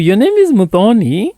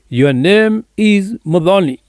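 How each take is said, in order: First: The voice rises at the end like a question. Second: The voice falls at the end like a statement. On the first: The speaker is asking whether that is her name. "I'm asking this lady" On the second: The speaker is declaring what her name is. "I'm baptizing her with porridge"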